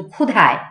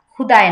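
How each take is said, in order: First: ক্ষুধায় with a breathy dh; aspirated dh. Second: ক্ষুধায় said as khuday, plain d; unaspirated d. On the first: Teacher corrects to ক্ষুধায়, dh aspirated. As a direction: push air through ধ in ক্ষুধায়. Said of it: "ক্ষুধায় না কিন্তু". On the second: Teacher shows learners the mistake, khuday with plain d. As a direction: drop the breath from ধ in ক্ষুধায়. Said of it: "না কিন্তু". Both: Shown as a demonstration.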